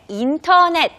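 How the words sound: It is pronounced with Korean loanword sounds. The speaker calls it wrong.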